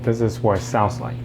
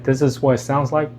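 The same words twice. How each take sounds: First: Background dryer noise is clearly heard behind the voice. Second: Background dryer noise is filtered out of the audio. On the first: "the noise cancellation is now off" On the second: "this is what it sounds like with the noise cancellation on"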